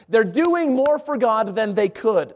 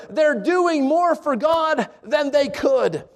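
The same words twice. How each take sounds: First: Slowly repeated for weight; slow, weighty restatement; slow emphasis. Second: Each word laid out slowly; slow, weighty delivery; slow emphasis. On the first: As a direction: drive it home word by word. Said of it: "I want you to get this". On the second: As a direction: let every word sink in. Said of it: "Let this statement sink in". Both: Shown as a demonstration.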